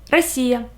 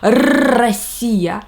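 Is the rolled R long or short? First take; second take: short; long. First: The rolled R is kept short. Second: The rolled R is drawn out long. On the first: The speaker calls it right. "let's make this sound shorter" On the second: The speaker calls it wrong. "we don't say"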